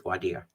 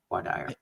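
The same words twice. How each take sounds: First: "voir dire" with dire rhyming with deer; voir dire, DEER ending. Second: "voir dire" with dire rhyming with fire; voir dire, DIE-er ending. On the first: Lawyer on what defense must do well, "voir dire" said softly as vwar DEER. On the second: Lawyer correcting to the other form, "voir dire" said softly as vwar DIE-er. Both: Real, not acted. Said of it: "Depending on how you wanna pronounce it".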